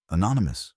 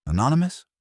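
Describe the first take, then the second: First: Falling, level, unbothered; dry confirmation. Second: High, rising disbelief; incredulous. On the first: Wolf answering the inspector, dry falling confirmation. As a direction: set it down as a closed matter. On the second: Inspector doubting Wolf's claim, higher incredulous question. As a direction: toss the word back in disbelief. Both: Acted.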